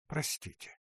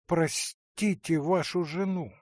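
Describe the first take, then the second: First: Breathy whispered "Простите"; soft whispered begging; whispered plea. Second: "простите вашу жену" said aloud, leaning on "вашу"; full-voiced pleading for the wife; voiced tearful plea. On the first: Acted. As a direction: whisper "Простите" as if choking back tears. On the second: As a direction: beg out loud, stressing "вашу". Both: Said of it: "Глаза … наполнились слезами".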